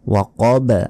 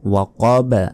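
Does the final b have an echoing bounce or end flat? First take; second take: bounce; bounce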